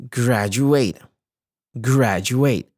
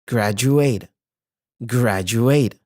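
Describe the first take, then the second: Both takes have the same delivery.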